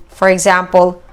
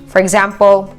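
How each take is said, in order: Both takes have the same delivery.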